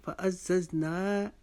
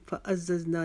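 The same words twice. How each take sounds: First: Slow फ़अज़्ज़ज़ना with held "naa"; measured model recitation of फ़अज़्ज़ज़ना; one-beat long ending. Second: फ़अज़्ज़ज़ना with a quick final "na"; wrong-way demo, cut the end of फ़अज़्ज़ज़ना short; too-short ending. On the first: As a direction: stretch the last vowel of फ़अज़्ज़ज़ना for a beat. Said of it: "एक अलिफ से छोटा नहीं". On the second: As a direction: say फ़अज़्ज़ज़ना without holding the last vowel. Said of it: "छोटा नहीं पढ़ना". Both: Shown as a demonstration.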